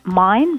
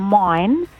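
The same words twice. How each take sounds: First: The vowel is plain and short. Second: The vowel is stretched and broadened.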